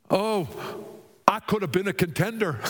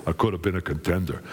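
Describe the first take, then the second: First: High-pitched, quick movie-boxer lament; higher-voiced boxer impression; Rocky Balboa. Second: Low, fast movie-boxer impression; deep-voiced, rapid boxer lament; Rocky Balboa. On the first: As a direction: play a boxer's cry of regret, pitched up. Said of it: "said Rocky Balboa". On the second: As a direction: drop deep and run it together like a boxer. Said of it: "Wait, he would have said".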